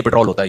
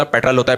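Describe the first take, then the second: First: پٹرول said as pit-ROL, long o; local Urdu pronunciation. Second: پٹرول said as PET-rul, short second vowel; corrected English pronunciation. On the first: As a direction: give پٹرول a full long o in the last syllable. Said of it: "style سے بولنا چاہیے". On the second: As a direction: stress the first syllable of پٹرول, reduce the last to rul. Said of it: "پٹرول نہیں ہوتا". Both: Retold or imitated.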